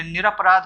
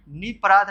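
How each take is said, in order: First: निरपराध said with a clear r, nir-aparaadh; निरपराध: sound the r after ni, nir-apa-raadh; correct form read out. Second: निपराध said without the r, ni-paraadh; निपराध: glide straight from ni to pa, no r sound; wrong form read out. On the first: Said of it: "निरपराध होता है". (निरपराध में र साफ़ बोलें, निर-अपराध) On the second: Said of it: "निपराध नहीं होता". (निपराध बिना र के, नि-पराध) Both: Shown as a demonstration.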